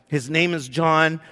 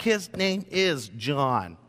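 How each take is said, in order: First: Said in the usual way. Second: Slow, each word weighted, "His name is John" set down firmly; slow deliberate insistence on "His name is John"; emphatic. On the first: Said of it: "Zechariah's like". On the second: Shown as a demonstration. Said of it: "Zechariah was so emphatic".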